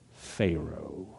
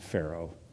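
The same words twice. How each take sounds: First: The name is said with a contemptuous Southern tone. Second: The name is said plainly, without contempt. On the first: The speaker calls it right. "You got to put a little bit of contempt in it" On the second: The speaker calls it wrong. "His name is not Pharaoh"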